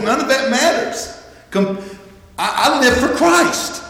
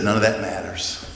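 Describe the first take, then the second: First: High-pitched, impassioned insistence; soaring, emphatic testimony of faith; fervent declaration. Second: Low, soft, settled statement; understated, private resolve; quiet dismissal. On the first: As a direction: lift the voice high and declare it with conviction. Paul's dismissal repeated as fervent declaration. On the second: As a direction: say it low and softly, letting it go. Paul's dismissal, first quiet take. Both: Acted.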